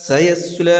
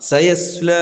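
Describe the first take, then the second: Both takes have the same delivery.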